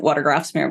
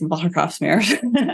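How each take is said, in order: First: The name is said with an American pronunciation. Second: The name is said with a Dutch pronunciation. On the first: The speaker calls it wrong. "is an American, I would pronounce it" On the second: The speaker calls it right. "but it's"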